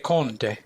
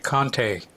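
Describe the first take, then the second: First: It is said with an Italian pronunciation. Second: It is said with an American pronunciation.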